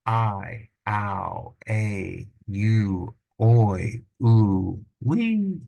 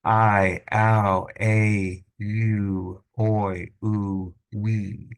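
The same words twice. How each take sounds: First: I, ow, a, you, oi, oo, wee said slowly and clearly; teacher models sounds for class; drill the vowel sounds. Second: I, ow, a, you, oi, oo, wee said loudly, evenly, briskly; teacher repeats vowel drill; second drill run. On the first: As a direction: model each sound for students to repeat. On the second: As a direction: run through the sounds again, steady. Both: Shown as a demonstration. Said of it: "So practice saying these sounds".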